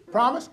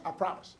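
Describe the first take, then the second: First: Said in the usual way. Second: Soft, sheepish "I promise"; mumbled promise under the breath; meek promise. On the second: Retold or imitated. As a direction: promise it quietly like a scolded husband. Husband reluctantly promises.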